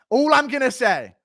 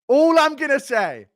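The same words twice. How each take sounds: The two takes are said the same way.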